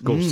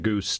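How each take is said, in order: First: It is two syllables, like 'go-zuh'. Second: It is one syllable rhyming with 'loose'. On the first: The speaker calls it right. "but it's Gose" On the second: The speaker calls it wrong. "to goose to whatever"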